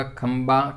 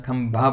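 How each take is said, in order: First: खंबा said with plain b, slowly; wrong form khamba. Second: खंभा said with breathy bh, slowly; right form khambha. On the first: Teacher shows the wrong form खंबा, said slowly. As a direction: say खंबा with unaspirated b. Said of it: "खंबा नहीं बनता है". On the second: Teacher gives the correct form खंभा, said slowly. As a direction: stress the bh in खंभा. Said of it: "खंभा बनता है". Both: Shown as a demonstration.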